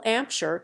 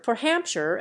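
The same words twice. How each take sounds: First: Hampshire said 'Ampshire, with no H sound at the start; dropped H. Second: Said in the usual way. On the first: Shown as a demonstration. Reader showing Cockney H dropping says Hampshire as 'Ampshire. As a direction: drop the H in Hampshire, Cockney style. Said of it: "H dropping".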